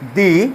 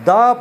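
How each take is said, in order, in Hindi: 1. स्वर लंबा है, "thee" जैसा। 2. स्वर छोटा है, "thuh" जैसा। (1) "भावेल साउंड आसूची ता पूर्व आम से टी एच ई की कहबा दी" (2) "कॉन्सोनेंट साउंड आसीबो ताको आम कहबा द"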